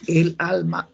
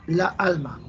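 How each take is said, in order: First: "El alma" with the l linking into the a; euphonious article. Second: "La alma" with the two a sounds clashing; cacophonous hiatus. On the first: Teacher showing students the agreeable sound, euphonious "El alma". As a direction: say "El alma" joined smoothly, l into a. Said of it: "Yo le busco una eufonía, sonido agradable". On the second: Teacher showing students what sounds ugly, cacophonous "La alma". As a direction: say "La alma" as two separate words, a against a. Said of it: "Eso es cacofonía, sonido desagradable". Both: Shown as a demonstration.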